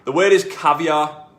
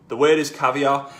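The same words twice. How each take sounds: The two takes are said the same way.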